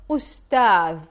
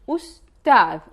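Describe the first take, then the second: First: It starts with 'u' and ends in soft 'th'. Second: The same.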